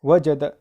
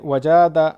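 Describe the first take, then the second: First: वजद in three short, even syllables; short unstretched vowels. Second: वजादा with a long middle aa; wrongly lengthened vowel. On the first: Teacher showing the reading, वजद with all vowels short. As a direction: keep every vowel of वजद short, no stretching. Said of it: "थोड़ा भी नहीं खींचेंगे।". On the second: Teacher warning of a misreading, वजादा drawn long in the middle. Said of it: "ऐसा पढ़ोगे तो गलत हो जाएगा". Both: Shown as a demonstration.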